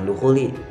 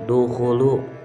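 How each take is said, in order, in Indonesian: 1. Kata itu diakhiri dengan vokal 'i'. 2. Kata itu diakhiri dengan vokal 'u'. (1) "bukan dukhuli" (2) "harusnya dukhulu"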